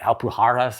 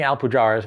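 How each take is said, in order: First: The name is said with Spanish pronunciation. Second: The name is said without Spanish pronunciation. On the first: This is the Spanish form of the name. "the Spanish version like Alpujarras" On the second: This is how the players have been saying it. "We're saying Alpujarras"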